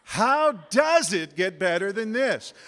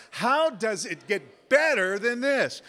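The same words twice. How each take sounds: First: "does" punched high and loud; stress on does. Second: "better" punched high and loud; stress on better. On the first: Showing how emphasis changes the phrase, heavy stress on "does". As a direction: hit "does" hard in a slow, raised delivery. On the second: Showing how emphasis changes the phrase, heavy stress on "better". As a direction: hit "better" hard in a slow, raised delivery. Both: Shown as a demonstration. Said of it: "put the emphasis on a different syllable".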